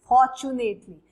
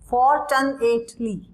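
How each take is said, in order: First: It is said smoothly as one word. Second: It is split into spelled-out parts. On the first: This is how it is said in speech. "When you speak it, प्रोनाउंसिएशन" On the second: This is a way to remember the spelling. "Fortunately आप ऐसे learn करोगे"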